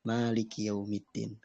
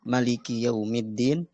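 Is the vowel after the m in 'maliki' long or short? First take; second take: long; short. First: The vowel after the m is long. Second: The vowel after the m is short. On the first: "membacanya dengan uh, alif" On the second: "tanpa alif. Jadi mimnya pendek"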